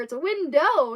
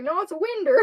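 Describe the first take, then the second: First: "window" with a clear -ow ending; loud, raised correction on "window"; corrective pronunciation. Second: "winder" ending in -er; loud, raised retort on "winder"; insistent country pronunciation. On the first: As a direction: spell out "window" by ear, ending in oh. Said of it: "I tried to explain it's window". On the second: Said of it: "he actually got mad at me". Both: Retold or imitated.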